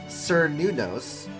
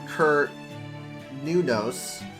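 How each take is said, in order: First: The name begins with an S sound. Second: The name begins with a hard K sound. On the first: This follows the Latinized Roman pronunciation. "pronounced it with an S" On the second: This follows the old Celtic pronunciation. "the Old Celtic language pronounces C's of hard K sounds"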